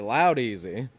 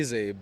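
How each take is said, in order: First: The name sounds like English 'loud easy'. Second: The name has its original, non-English pronunciation. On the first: "So I like to say loud easy" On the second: "the proper pronunciation is Laudeezy"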